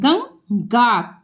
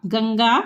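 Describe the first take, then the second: First: Ganga stretched syllable by syllable; slow sounding out. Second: Said in the usual way. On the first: Shown as a demonstration. Teacher showing pupils how to sound out Ganga. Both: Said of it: "जैसे ये हम दिखा रहे हैं".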